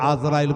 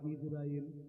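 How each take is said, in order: First: The name begins with an 'a' vowel. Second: The name begins with an 'i' vowel. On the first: The speaker calls it wrong. "আজরাইল কথাটা একবার গলগলে ভুল" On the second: The speaker calls it right. "এটা হবে ইজরাইল"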